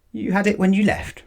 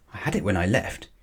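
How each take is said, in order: First: Much higher disbelieving echo; incredulous repeat. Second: Said in the usual way. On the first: A narrator's reading. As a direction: repeat his words in disbelief. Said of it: "repeated Mister Brown". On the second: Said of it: "gasped Paddington".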